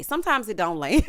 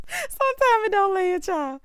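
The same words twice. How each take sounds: First: Said in the usual way. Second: High, squeezed out through laughter; laughing. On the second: Real, not acted. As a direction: repeat it helpless with amusement, pitched high. Repeats it while cracking up.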